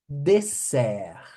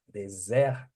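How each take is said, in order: First: The middle consonant is a hissing S sound. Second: The middle consonant is a buzzing Z sound. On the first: It means dessert. The speaker calls it right. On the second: It means desert, not dessert. The speaker calls it wrong.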